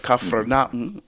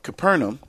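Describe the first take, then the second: First: It has the local pronunciation. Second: It has the familiar English pronunciation.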